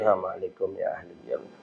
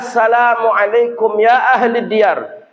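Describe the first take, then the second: First: The greeting is said quietly, under the breath. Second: The greeting is said in a loud voice. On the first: It is recited silently so no one hears. The speaker calls it wrong. "bukan Nabi diam-diam" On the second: It is recited aloud so others hear. The speaker calls it right. "Nabi dengan suara lantang"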